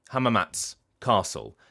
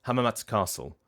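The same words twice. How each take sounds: First: Hamamatsu Castle as "Hamamats", a short stop, "Castle"; pause after ts. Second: Hamamatsu Castle with the oo swallowed, no pause; run-together ts. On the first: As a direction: drop the oo and halt briefly before "Castle". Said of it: "like, pausing for a second". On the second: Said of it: "you have people pronouncing it". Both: Shown as a demonstration.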